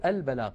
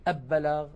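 First: البلاغ said al-balāgh, with clear l; pronounced lam. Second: البلاغ said ab-balāgh, l dropped; assimilated lam. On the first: Teacher showing correct form, البلاغ as al-balāgh. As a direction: sound the l before b in البلاغ. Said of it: "بل نقول البلاغ". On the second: Teacher showing the error, البلاغ as ab-balāgh. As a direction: double the b in البلاغ, no l. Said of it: "ما نقول البلاغ". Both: Shown as a demonstration.

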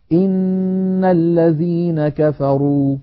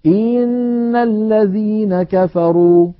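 First: إن الذين كفروا recited slowly, the kasra of إن kept short; correct recitation. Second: إن الذين كفروا chanted higher, the kasra of إن dragged out like a long ي; overstretched vowel. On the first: Teacher demonstrates correct Quran reading, slow and even. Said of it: "يعني مثلًا لما نقول". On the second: Teacher demonstrates the wrong, overlong recitation. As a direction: drag the kasra of إن until it sounds like إين, recite slowly and higher. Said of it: "لو بالغنا وقلنا". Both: Shown as a demonstration.

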